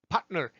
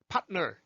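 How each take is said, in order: The two takes are said the same way.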